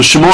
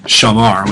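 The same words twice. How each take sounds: First: "shamor" with a long O in the last syllable; "shamor", closing on an OR sound; infinitive vowel pronunciation. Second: "shamar" with an open AH in the last syllable; slowly sounded "shamar", closing on an AR sound; perfect vowel pronunciation. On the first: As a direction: say "shamor", ending to rhyme with "more". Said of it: "not shamar, which means he kept". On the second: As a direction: say "shamar", ending to rhyme with "far". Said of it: "which means he kept". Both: Shown as a demonstration.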